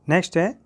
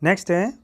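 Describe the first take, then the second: The two takes are said the same way.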